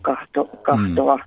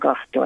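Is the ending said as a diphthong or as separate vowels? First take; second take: separate vowels; diphthong. First: The ending vowels are said as separate syllables. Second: The ending vowels glide together as a diphthong. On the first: The speaker calls it wrong. "että se ei ole kahtoa" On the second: The speaker calls it right. "niin se on diftongina kahtoa"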